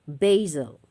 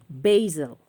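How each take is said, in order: No difference in how they are said.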